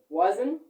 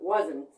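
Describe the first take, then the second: First: The word ends on the N sound, T silent. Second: The word ends with an audible T sound. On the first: The speaker calls it right. "So we say wasn't" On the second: The speaker calls it wrong. "but not wasn't"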